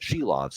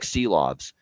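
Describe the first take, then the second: First: The name begins with an sh sound. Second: The name begins with a plain s sound. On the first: The speaker calls it right. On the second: The speaker calls it wrong.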